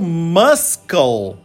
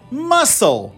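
First: The c is pronounced as a k sound. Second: The c is silent, no k sound. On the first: The speaker calls it wrong. "tasca-lhe o muscle" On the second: The speaker calls it right. "suprimindo o e dizendo muscle"

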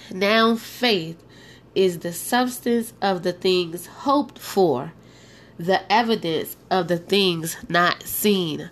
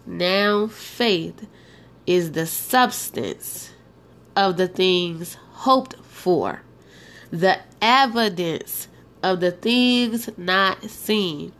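First: It is read at a normal pace. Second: It is read very slowly.

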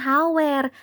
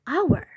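First: The h sound at the start is pronounced. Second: The h sound at the start is silent. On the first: The speaker calls it wrong. "bacanya itu bukan hour ataupun hour" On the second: The speaker calls it right. "tapi yang benar itu bacanya hour"

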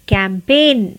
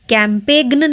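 First: It has no g sound near the end. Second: It has a g sound near the end. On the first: The speaker calls it right. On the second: The speaker calls it wrong. "कैंपेग्न नहीं"

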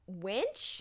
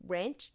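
First: The word has no r sound, like wench. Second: The word has an r sound, like wrench. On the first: The speaker calls it right. "I tried so hard to say it right, too" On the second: The speaker calls it wrong. "He's a real man's man who just loves his tools"

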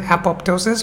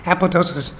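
First: The second p sound is pronounced. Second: The second p sound is left out. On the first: The speaker calls it wrong. "we don't pronounce it apoptosis" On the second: The speaker calls it right. "but the second P is absent"

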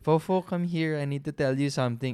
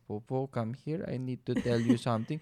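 First: It is said in a natural voice. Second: It is said in an awkward voice.

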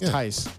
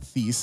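First: The name rhymes with 'ice'. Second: The name does not rhyme with 'ice'. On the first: The speaker calls it right. "It's Tice. Like Mike Tice" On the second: The speaker calls it wrong. "It's not Thies"

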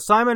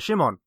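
First: The name starts with an s sound. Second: The name starts with a sh sound. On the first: This is the English way of saying it. "Simon is how you would, I guess, you know, say it just in English" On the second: This is the Polish way of saying it. "with all the Polish pronunciation, it is Shimon"

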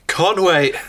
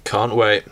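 First: It is said with lots of energy. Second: It is said flatly, with little energy.

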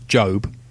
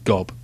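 First: The name begins with a j sound. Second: The name begins with a hard g sound. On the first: This is how the characters themselves say it. The speaker calls it right. "which they pronounce Job" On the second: This is how others often say it. The speaker calls it wrong. "gets mispronounced as Gob"

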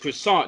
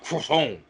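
First: It is said in a plain American accent. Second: It is said in an exaggerated French accent. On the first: The speaker calls it right. "It's croissant" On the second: The speaker calls it wrong. "not croissant"

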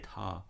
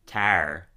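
First: The final r sound is dropped. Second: The final r sound is pronounced. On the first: This is how an English speaker would say it. "where Sebastian would say Ta" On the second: This is the speaker's own way of saying it. "Because I'd say"

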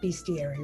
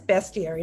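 First: The first syllable sounds like 'beast'. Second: The first syllable sounds like 'best'. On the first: The speaker calls it wrong. "not bestiary ... It would have to be B-E-A-S" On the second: The speaker calls it right. "it is bestiary"

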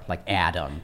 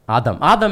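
First: The name has a hard, English-style first vowel. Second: The name has an Arabic-style first vowel. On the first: "In English, all the vowels are like hard" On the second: "Adam is like the Arabic"

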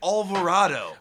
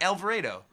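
First: The A has a West Coast accent sound. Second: The A has a hard Cleveland accent sound.

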